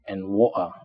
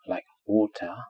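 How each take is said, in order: First: The middle consonant is a glottal stop. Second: The middle consonant is a clear t. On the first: "If we replace T with glottal stop" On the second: "in received pronunciation, which is British, it is pronounced t"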